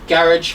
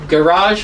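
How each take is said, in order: First: It is said with a British pronunciation. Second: It is said with an American pronunciation. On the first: "garage for British English" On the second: "Garage for American"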